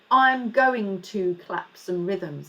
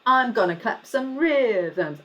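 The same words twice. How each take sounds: First: I'm going to said in full, slow and careful; formal version. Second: I'm gonna run together casually; relaxed gonna as in the rap; informal gonna. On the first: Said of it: "normally you would say". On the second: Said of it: "I'm gonna, not I'm going to". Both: Shown as a demonstration.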